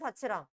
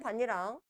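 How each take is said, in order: First: The middle consonant is a ch sound. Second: The middle consonant is a doubled n sound. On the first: The ending is a grammatical particle. "형식 형태소일 때는" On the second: The ending is a word with its own meaning. "실질 형태소일 때는"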